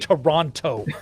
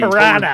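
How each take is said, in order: First: The second T is clearly pronounced. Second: The second T is dropped entirely. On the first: The speaker is not from Canada. "By going Toronto" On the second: The speaker is from Canada. "I do not pronounce the T"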